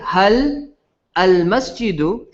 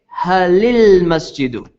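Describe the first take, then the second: First: Hal ends without a vowel; al starts separately. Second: Hal takes an i vowel, gliding into lmasjidu. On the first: The speaker calls it wrong. "instead of saying" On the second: The speaker calls it right. "you say"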